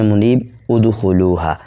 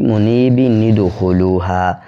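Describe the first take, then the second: First: The words are separated, with no linking nun. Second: The words are joined with a linking nun. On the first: "वक़फ़ में" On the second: "मिलाया तो एक हरकत गिर गई"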